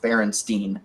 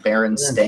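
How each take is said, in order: First: The last syllable rhymes with wine, like stine. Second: The last syllable sounds like the word stain. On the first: This is how the name was remembered. "all of my memory was Berenstein, S T E I N" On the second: This is how the name is actually spelled. "it's spelled S T A I N, like a stain on your clothing"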